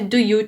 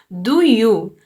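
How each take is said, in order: First: It is said like the English phrase. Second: It is said as the song title, not English. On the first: The speaker calls it wrong. "Não é do you, tipo do you do inglês" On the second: The speaker calls it right. "Do You se pronuncia D O O Y O"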